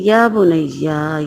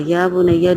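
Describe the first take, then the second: First: Drawn out very slowly and tenderly, یا بنیا lingering; fond father calling his little son; affectionate. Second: Said in the usual way. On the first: Shown as a demonstration. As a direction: call the son lovingly, stretching یا بنیا. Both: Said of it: "لاڈ پیار سے".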